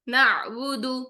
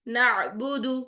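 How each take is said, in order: First: The voice flows smoothly through the middle sound. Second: The same.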